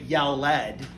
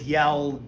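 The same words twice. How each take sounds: First: The ending is pronounced as a separate syllable. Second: The ending joins the word as one syllable. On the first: The speaker calls it wrong. "It didn't say yelled" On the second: The speaker calls it right. "It says yelled"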